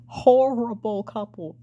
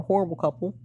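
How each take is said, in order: First: HORRIBLE drawn out slowly and pitched higher; emphatic repeat. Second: Said in the usual way. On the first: Real, not acted. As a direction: stretch the word Horrible, slow and emphatic.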